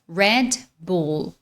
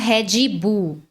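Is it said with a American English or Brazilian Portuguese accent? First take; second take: American English; Brazilian Portuguese. First: It is said with American English sounds. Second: It is said with Brazilian Portuguese sounds. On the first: "Só que no inglês é" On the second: "A gente fala Red Bull"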